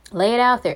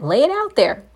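First: Said in the usual way. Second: Urgent encouragement. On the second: Real, not acted. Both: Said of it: "urging the listener, repeated".

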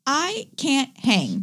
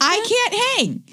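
First: Slow, drawn out confession; slow low admission. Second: High squeaky repeat. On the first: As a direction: drag it out wearily. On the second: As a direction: squeak it out the second time. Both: Shown as a demonstration.

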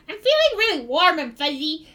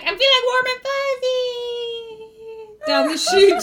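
First: Higher-pitched dopey goblin voice; dazed goblin. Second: High, long-drawn falling cry; falling goblin wail. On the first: Goblin says how he feels, higher dazed goblin voice. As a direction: goblin basking in a new feeling. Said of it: "he was like". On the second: Goblin falls into the hole, high drawn-out wail. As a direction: stretch the last word as you plummet. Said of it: "he fell forward into the hole ... he's like". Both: Acted.

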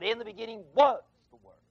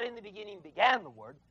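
First: Was pressed, the verse read quickly; stress on was. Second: Said in the usual way. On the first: Shown as a demonstration. Preacher gives the right reading, pressing was. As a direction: hit was in "in the beginning was the Word".

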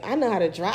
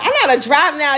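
First: Said in the usual way. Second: Louder, higher repeat with weight on "know how to drive now"; emphatic boast. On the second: Real, not acted. Co-host boasting to friend that she can drive now, emphatic boast.

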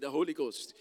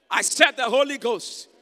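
First: Said in the usual way. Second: Loud, high repeat of the answer; emphatic shout. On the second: Real, not acted.

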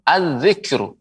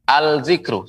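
First: "az-zikru" with the l melted into a double z; merged article. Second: "al-zikru" with the l sounded before z; unmerged article. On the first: Quran teacher corrects the mistake, merged article. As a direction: hold the z in "az-zikru", no l. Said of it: "Tapi dilebur". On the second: Quran teacher shows the wrong reading, unmerged article. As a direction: keep a clear l in "al-zikru". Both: Shown as a demonstration.

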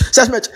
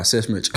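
First: "Search match." jumps much higher and louder; higher repeat. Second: Said in the usual way. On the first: Shown as a demonstration. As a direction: punch "Search match." up high with a laugh in it.

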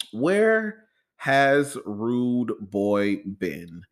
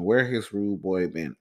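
First: Stretched out very slowly, rising at the end; dramatic slow question. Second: Said in the usual way. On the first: Acted. Host teasing listeners with the big question, dramatic and slow. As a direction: drag it out for suspense.

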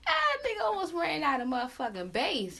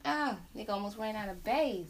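First: Higher and louder, cracking up over the words; a loud laughing exclamation; loud laughing outburst. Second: Laughing repeat. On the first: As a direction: blurt it out between laughs. Laughing about a voice squeak. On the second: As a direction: say it again, still chuckling. Repeating the joke while laughing. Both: Real, not acted.

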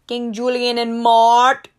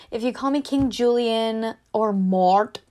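First: Much louder, slow, put-on showman voice; hammed-up cartoon announcer. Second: Said in the usual way. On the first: Shown as a demonstration. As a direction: belt the names out like a cartoon king.

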